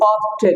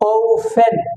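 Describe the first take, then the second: First: All the consonants are pronounced. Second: One consonant is left silent. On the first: The speaker calls it wrong. "অফটেন বলে, অফটেন, no" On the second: The speaker calls it right. "Silent হবে"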